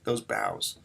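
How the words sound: The second word carries the stress. The speaker calls it right. "I'm hitting those bows"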